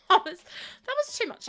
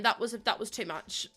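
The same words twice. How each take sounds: First: Mock wail. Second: Said in the usual way. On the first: Real, not acted.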